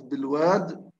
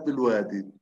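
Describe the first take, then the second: First: The word ends without the final long 'ee' vowel. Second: The word ends with the final long 'ee' vowel. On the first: "بالحذف" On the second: "وبالإثبات"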